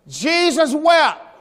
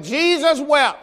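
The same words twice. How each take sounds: First: "Jesus wept" said slowly, each word stretched and set apart; slow drawn-out recital. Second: Said in the usual way. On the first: Retold or imitated. Child reciting his verse to the Sunday school class, slow and proud. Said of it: "I stand up like this here and I said". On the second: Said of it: "and I said".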